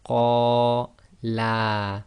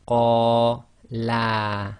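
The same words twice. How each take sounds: The two takes are said the same way.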